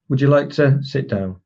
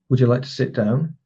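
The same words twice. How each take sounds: First: The voice falls at the end, with a pause. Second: The voice stays level at the end. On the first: It is given as a command. "if it goes down at the end, it becomes a command. And if you put the pause in there as well" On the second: It is given as a statement. "If it stays on the level, it's a statement"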